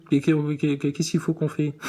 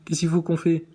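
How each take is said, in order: First: Dragged out slowly, word by word; slow insistent repeat. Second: Said in the usual way. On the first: Shown as a demonstration. Vlogger pressing the astronaut for an answer, slowly. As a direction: stretch the question out to press him.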